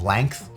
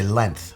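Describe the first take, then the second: First: The word has the usual modern pronunciation. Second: The word has an old-fashioned pronunciation. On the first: Most people today say it this way. "instead of length" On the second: An older person would say it this way. "My grandfather used to always say length. That's like an old person thing"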